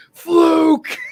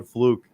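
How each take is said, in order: First: High, loud shout, "Fluke!" thrown out hard; imitating Roode's yell. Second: Said in the usual way. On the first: Roode yelling at Aries after losing the title, imitated high shout. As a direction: yell "Fluke!" like a sore loser. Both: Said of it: "he just kept yelling".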